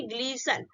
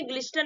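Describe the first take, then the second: First: ग्लिसन with a silent t; correct pronunciation. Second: ग्लिस्टर with the t sounded; wrong pronunciation. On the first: Teacher gives students the right ग्लिसन, t silent. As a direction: say ग्लिसन and drop the t. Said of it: "इसको क्या बोलेंगे". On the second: Teacher shows students the wrong ग्लिस्टर with t sounded. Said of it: "ग्लिस्टर नहीं बोलेंगे". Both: Shown as a demonstration.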